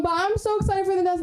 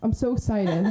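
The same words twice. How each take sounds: First: High-pitched gushing excitement; excited hype. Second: Said in the usual way. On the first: Real, not acted. Host to crowd before the next comic, high excitement. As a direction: squeal it out to hype the next act.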